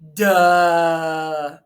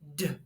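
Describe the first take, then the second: First: The d is followed by an added vowel sound. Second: A short, sharp d with no vowel after. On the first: The speaker calls it wrong. "sometimes I hear people say duh or da" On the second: The speaker calls it right. "it just makes a quick D"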